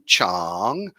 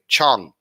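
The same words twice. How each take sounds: First: The word is said with a rising pitch. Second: The word is said without a rising pitch. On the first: It means my or mine. "has a rising tone" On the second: It means elephant. "if you just say Chang, Chang with no air, that's an elephant"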